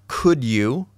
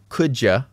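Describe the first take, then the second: First: Both words are said fully and separately. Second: The second word is cut to a quick 'ya'. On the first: It sounds the most formal. "not could you" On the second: It sounds the least formal. "Could ya is the least formal"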